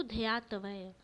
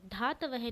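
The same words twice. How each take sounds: First: ध्यातवय with a y glide after dh; correct form dhyaatavay. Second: धातवय with a plain dh and no y; the wrong धातवय, dhaa-ta-vay; wrong form dhaatavay. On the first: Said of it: "अपितु". (शुद्ध रूप ध्यातवय, ध्या साफ़) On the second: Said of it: "धातवय नहीं". (गलत रूप धातवय) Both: Shown as a demonstration.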